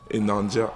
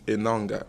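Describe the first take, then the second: First: The last consonant is a soft j sound. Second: The last consonant is a hard g sound. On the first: This is how other people say the name. The speaker calls it wrong. "Many people say, I don't know, Enanja" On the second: This is the name's own pronunciation. The speaker calls it right. "my last name is Enanga"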